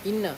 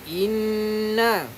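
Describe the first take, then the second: First: The nasal n is cut short without holding. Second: The nasal n is held for two beats. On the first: The speaker calls it wrong. "Jangan inna inna inna. Salah" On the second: The speaker calls it right. "Kena dengung dua harakat. Tahan dua harakat"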